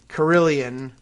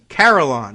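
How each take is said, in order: First: An extra 'ee' syllable comes before the ending. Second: No 'ee' syllable comes before the ending. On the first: The speaker calls it wrong. "I keep wanting to say Carillion, but... there's no I" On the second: The speaker calls it right. "there you go. So like Caroline"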